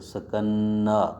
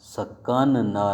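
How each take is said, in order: First: The two n sounds merge into one long n. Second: The two n sounds are said separately. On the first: The speaker calls it right. "बल्कि सकन्ना" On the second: The speaker calls it wrong. "सकन ना नहीं पढ़ेंगे"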